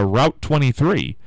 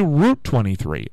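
First: Route rhyming with out; "rout" pronunciation. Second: Route said as "root"; long oo in Route; "root" pronunciation. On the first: Host imagining giving directions, Route as "rout". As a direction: say Route with an ow vowel. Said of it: "supposed to be pronounced route". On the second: Host quoting some people, Route as "root". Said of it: "some people say". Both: Shown as a demonstration.

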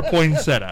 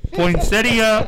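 First: "poinsettia" said poin-SET-uh, ending in uh alone; three-syllable poinsettia. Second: "poinsettia" said poin-SET-ee-uh, with an ee before the end; four-syllable poinsettia. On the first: Host asks Angie for a vote, three-syllable poin-SET-uh. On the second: Host asks Angie for a vote, four-syllable poin-SET-ee-uh. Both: Shown as a demonstration. Polls Angie on two pronunciations.

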